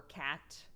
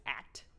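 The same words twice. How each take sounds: First: Said in the usual way. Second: "at" for cat, with the c left off; dropped first consonant. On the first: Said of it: "It can sound like". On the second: Retold or imitated. Showing the baby's word for cat, "at" with dropped consonant. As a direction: say cat as just "at", no opening sound. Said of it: "it just comes out as".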